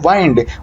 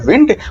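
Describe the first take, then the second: First: The vowel is a diphthong, as in eye. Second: The vowel is a short i, as in bit. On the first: It is the verb meaning to wind up with a key. "Verb के रूप में बोला जाए तो इसका उच्चारण होता है वाइंड" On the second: It is the noun meaning moving air. "Noun के रूप में बोले तो वो होता है विंड"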